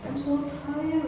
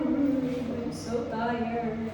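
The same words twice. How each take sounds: First: Said in the usual way. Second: Mabagal at paos na boses; pagod na paos. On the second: Real, not acted. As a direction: hinihilang parang ubos na lakas. (paos na boses dahil sa sobrang pagod) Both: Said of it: "Iba na yung boses ko".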